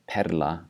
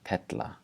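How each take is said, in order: First: A plain R sound comes before the L. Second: A T sound replaces the R before L. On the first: "instead of saying perla" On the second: "with a T instead of an R"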